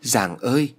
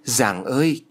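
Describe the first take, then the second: First: Lightly voiced second joyful cry. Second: Lightly voiced joyful cry to the heavens. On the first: Mother calls out to Giàng in joy, mild cry. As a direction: call on Giàng again, gladdened. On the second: Grieving mother hears her daughter lives, joyful cry. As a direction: call out to Giàng, gladdened. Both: A narrator's reading. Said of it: "mừng rú lên".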